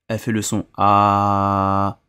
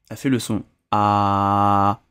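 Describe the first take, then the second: No difference in how they are said.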